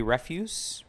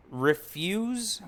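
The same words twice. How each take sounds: First: "Refuse" said as REF-use, like garbage, stress on the first syllable, rising as a question. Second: "Refuse" said as re-FUSE, like the verb, stress on the second syllable. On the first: Vlogger unsure of the title, trying "Refuse" as REF-yooss. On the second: Vlogger trying one pronunciation of the comic title, "Refuse" as ri-FYOOZ. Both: Shown as a demonstration. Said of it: "Refuse or Refuse?".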